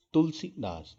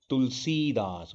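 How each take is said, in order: First: तुलसीदास with a short i in सी; higher तुलसीदास, clipped सी; short vowel in सी. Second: तुलसीदास with a long ee in सी; long vowel in सी. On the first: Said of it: "गलत लग रहा है". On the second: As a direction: stretch सी in तुलसीदास. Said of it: "तुलसीदास होता है". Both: Shown as a demonstration.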